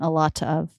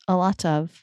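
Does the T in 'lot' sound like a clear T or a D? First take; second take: clear T; D. First: Slow, with a clear, crisp T sound. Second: Natural speed, with the T flapped like a D. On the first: "You just slowed down" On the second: "It's a D"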